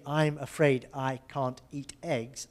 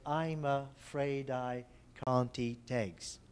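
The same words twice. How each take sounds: First: Slow, "afraid I can't eat eggs" said word by word with gaps; separate words. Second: Slow, consonants slid onto the vowels: "I'm-afraid-I-can't-teat-teggs"; linked speech. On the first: Teacher shows the version he did not say, word by word. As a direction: pause between each word. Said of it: "because I didn't say". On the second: Teacher shows linking, consonants sliding to vowels. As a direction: glide each consonant into the next vowel. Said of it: "I said". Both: Shown as a demonstration.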